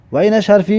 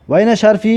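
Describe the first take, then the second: No difference in how they are said.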